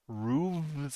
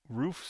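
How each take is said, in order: First: The word ends with a v sound. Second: The word ends with an f sound.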